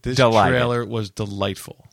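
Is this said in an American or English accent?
American. It is said in his ordinary American accent.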